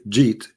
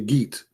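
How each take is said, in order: First: It starts with a soft j sound. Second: It starts with a hard g sound, Egyptian style.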